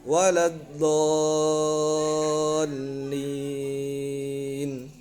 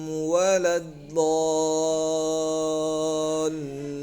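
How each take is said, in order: The two takes are said the same way.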